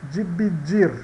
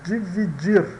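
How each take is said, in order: No difference in how they are said.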